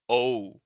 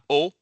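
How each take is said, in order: First: The vowel glides toward ooh and trails off. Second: The vowel is short and cut off abruptly. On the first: The speaker calls it right. "but O" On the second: The speaker calls it wrong. "not O"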